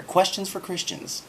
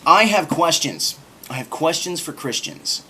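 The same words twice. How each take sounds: First: High, dramatic title read; mock-epic announcement; grand title. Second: Slow, loud, grand title voice; dramatic announcement. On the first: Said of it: "cool sounding piece of rhetoric". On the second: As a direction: announce it like a big show title. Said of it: "that's just a cool sounding piece of rhetoric". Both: Shown as a demonstration.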